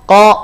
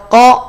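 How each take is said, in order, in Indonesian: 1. Vokalnya adalah bunyi O yang bulat. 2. Vokalnya adalah bunyi O yang bulat.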